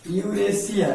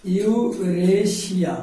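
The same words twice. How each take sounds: First: Said in the usual way. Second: यूरेशिया। drawn out as yu-re-shi-ya; teacher's very slow, sounded-out यूरेशिया।; slow model pronunciation. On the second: Shown as a demonstration. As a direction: stretch यूरेशिया। slowly, syllable by syllable, for learners. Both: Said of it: "क्या पढ़ेंगे इसको हम?".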